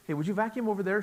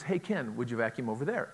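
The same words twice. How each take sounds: First: Plain direct ask, a bit higher and brighter; just say it straight out; blunt request. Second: Straightforward ask, no hinting; just ask him directly; plain direct request. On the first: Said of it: "She doesn't say like I do". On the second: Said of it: "That is". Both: Shown as a demonstration.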